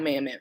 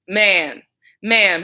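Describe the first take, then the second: First: It is said at a quiet, normal volume. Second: It is said with rising, loud volume.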